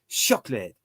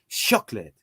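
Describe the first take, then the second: First: The word starts with an s sound. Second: The same.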